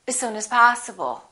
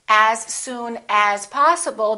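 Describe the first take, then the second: First: Each as is said with a reduced uh vowel. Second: Each as is said with a full vowel.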